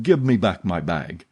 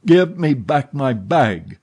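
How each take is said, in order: First: Said in the usual way. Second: Louder, slower demand, leaning on give; a man losing patience, louder and slower; insistent repeat. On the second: A narrator's reading. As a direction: hammer the repeat home, higher and louder. Erik repeats his demand, harder.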